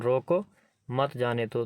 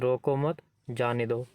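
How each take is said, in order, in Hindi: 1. पहले शब्द के बाद अल्प विराम है। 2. दूसरे शब्द के बाद अल्प विराम है। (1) "रोको के बाद अल्प विराम इसलिए लगाया है क्योंकि यहाँ पर थोड़ा हमको ठहरना है" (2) "यहाँ पर हमने मत के बाद अल्पविराम लगाया है"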